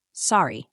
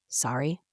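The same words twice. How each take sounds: First: "Sorry" ending on a falling tone; falling statement. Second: "Sorry" softly, rising into a question; quiet, questioning "Sorry" with a rise; incredulous question. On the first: Reading the note left behind. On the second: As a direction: echo "Sorry" back in disbelief, pitch lifting at the end. Echoing the note in disbelief. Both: A narrator's reading.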